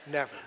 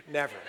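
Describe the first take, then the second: No difference in how they are said.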